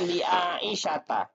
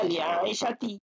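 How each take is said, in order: First: The name ends with a final 'ta' sound. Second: The name ends with a final 'ti' sound. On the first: The speaker calls it right. "Maka dibaca li Aisyata" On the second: The speaker calls it wrong. "tidak boleh dibaca li Aisyati"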